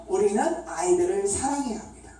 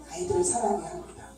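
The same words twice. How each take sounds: First: Said in the usual way. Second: Softer, quicker echo of the point; quiet repetition. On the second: Real, not acted. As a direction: repeat it softly, almost as an aside. Main point repeated more softly.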